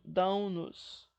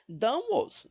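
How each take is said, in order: First: An n sound links the verb to the pronoun. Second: The pronoun follows the verb with no added n. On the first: The speaker calls it right. "Sempre nasalizando o pronome" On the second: The speaker calls it wrong. "não"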